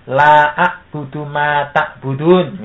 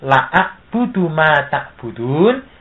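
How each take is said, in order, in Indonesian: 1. Vokal pada 'la' dibaca panjang. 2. Vokal pada 'la' dibaca pendek. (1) "Maka la-nya dibaca panjang" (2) "terburu-buru membaca dengan pendek"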